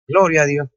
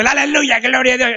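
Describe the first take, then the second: First: Said in the usual way. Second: Mocking showy praise. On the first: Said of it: "Amén". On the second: To the congregation, mimicking showy believers in a high mock praise. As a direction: poke fun at people who shout praise while driving. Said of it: "No es como unos que van hablando".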